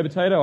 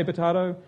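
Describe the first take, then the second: First: Potato said with a long ay sound, po-TAY-toe; potato as po-TAY-toe, the first of two ways; potato pronounced one way. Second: Potato as po-TAH-do, the second way; potato pronounced the other way. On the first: Preacher contrasting two ways to say a word: potato with an ay sound. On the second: Preacher contrasting two ways to say a word: potato with an ah sound. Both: Shown as a demonstration. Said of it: "You say potato, I say potato".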